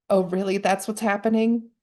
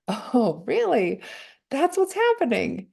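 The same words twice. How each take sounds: First: A sharper, judging take on the words; the harsh version of the same words; harsh inner voice. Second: The gentle version of the same words; gentle inner voice. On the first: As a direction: say it like the critical inner voice. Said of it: "just a different tone that I hear them in". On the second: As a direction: say it like kind self-talk. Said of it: "and then I hear it this way". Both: Shown as a demonstration.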